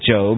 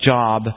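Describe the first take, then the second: First: The name is said the usual English way. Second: The name is read the way it looks. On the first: "in English, for some reason, we pronounce it Job" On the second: "I know it looks like Job"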